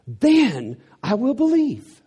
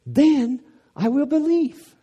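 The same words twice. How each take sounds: First: High, slow and loud, demanding; a doubter's sarcastic demand, loud and slow; mock skeptic ultimatum. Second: Very high, slow and loud; sarcastic doubter's demand, higher and louder; mock skeptic ultimatum. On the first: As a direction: lay down terms like a doubter. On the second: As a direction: push the demand up to a peak.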